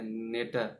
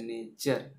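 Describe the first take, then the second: First: The middle consonant is a plain 't' sound. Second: The middle consonant is a 'ch' sound. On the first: The speaker calls it wrong. "नेटर नहीं बोलते हैं" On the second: The speaker calls it right. "टी को क्या बोले च पे बोलते हैं नेचर"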